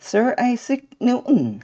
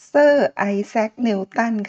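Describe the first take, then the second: First: It has an exaggerated Western English accent. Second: It has a plain Thai-style English accent. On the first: "สำเนียงออกดัดจริตแบบฝรั่ง" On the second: "เราคุ้นเคยกันมาตั้งแต่ตอนเด็กๆ"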